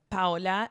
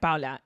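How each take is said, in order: First: The name rhymes with Crayola. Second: The name does not rhyme with Crayola. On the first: The speaker calls it right. "It's Paola, like Crayola" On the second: The speaker calls it wrong. "You said it wrong. You said Paula"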